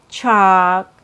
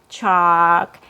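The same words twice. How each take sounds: No difference in how they are said.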